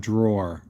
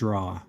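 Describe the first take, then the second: First: The word ends with a final r sound. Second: The word ends in an open vowel, no r. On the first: This is how people elsewhere say it. "But the rest of the world, it's a drawer" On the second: This is the local regional way of saying it. "D R A W. Not D R A W E R"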